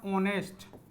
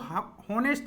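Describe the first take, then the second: First: The word begins directly with a vowel sound. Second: The word begins with an audible h sound. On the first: The speaker calls it right. "एच इसमें क्या रहता है? साइलेंट रहता है" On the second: The speaker calls it wrong. "इसको हॉनेस्ट नहीं पढ़ा जाता है"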